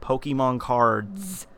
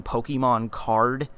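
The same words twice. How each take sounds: First: "cards" with a long, drawn-out final s; slow, exaggerated plural "cards"; plural stress on "cards". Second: "card" ending cleanly on the d; slow, singular "card". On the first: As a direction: lean on the s ending of "cards". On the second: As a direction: say "card" without any s at the end. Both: Shown as a demonstration.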